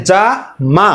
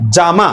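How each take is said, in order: First: "যা", a clear pause, then "মা"; split into syllables. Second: Said in the usual way. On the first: Shown as a demonstration. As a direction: break it in two beats: "যা ... মা". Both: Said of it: "আবার মা বলে আরেকটা প্রয়াস".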